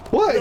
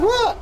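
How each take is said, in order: First: Said in the usual way. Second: High squeaky clueless what; cartoonishly innocent high what; innocent squeak. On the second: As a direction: play dumb, voice shooting way up. Baffled reply to chief.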